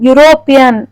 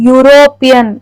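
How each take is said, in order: No difference in how they are said.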